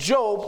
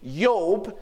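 First: The name begins with a J sound. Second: The name begins with a Y sound.

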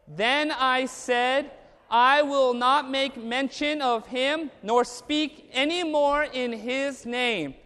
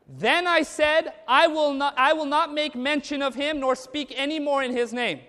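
First: It is spoken slowly. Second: It is spoken fast.

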